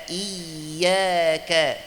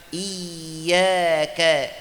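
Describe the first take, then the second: No difference in how they are said.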